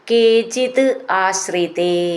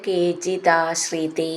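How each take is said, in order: First: The two words are said separately. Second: The two words are run together as one.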